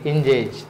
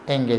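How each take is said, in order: First: The middle consonant is a j sound. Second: The middle consonant is a hard g. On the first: "काही मुलांनी त्याचा इंजेज असा केला" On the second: "right"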